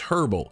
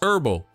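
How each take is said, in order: First: The word begins with an audible h sound. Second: The word begins with a vowel, no h. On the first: "if you're watching overseas" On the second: "If you're watching in the United States, it's herbal because we don't say H's"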